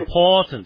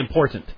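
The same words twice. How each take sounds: First: The O sound is stretched out long. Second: The O sound is short and not stretched. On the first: "you notice how O gets extended" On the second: "we say important"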